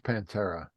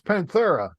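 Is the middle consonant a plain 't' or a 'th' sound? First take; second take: t; th. First: The middle consonant is a plain 't' sound. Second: The middle consonant is a lisped 'th' sound. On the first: "he leaves the H off" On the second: "like he's got a lisp"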